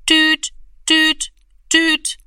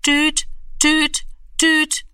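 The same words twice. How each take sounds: First: High, louder beeping tone; dial tone beeps. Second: High, even beeping tone; dial tone beeps. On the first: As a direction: imitate the phone's dial tone. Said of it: "machte es". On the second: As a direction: imitate the phone's dial tone once more. Freizeichen im Hörer. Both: A narrator's reading. (hoher Telefon-Piepton)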